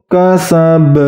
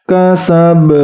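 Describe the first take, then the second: Both takes have the same delivery.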